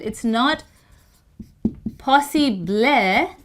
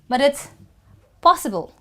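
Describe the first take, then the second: First: The last syllable has a clear E vowel. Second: The last syllable has no clear vowel. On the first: The speaker calls it wrong. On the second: The speaker calls it right. "you don't really hear the letter E"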